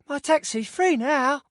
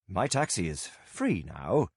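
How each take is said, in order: First: It is said in a Victorian street urchin voice. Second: It is said in his ordinary voice.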